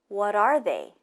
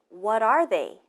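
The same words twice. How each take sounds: Both takes have the same delivery.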